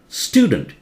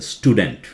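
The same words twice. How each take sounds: First: The stress is on the first syllable. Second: The stress is on the second syllable. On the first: The speaker calls it right. "This is pronounced as student" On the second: The speaker calls it wrong. "You cannot say student. Uh, they think something to do with teeth, you know, dent"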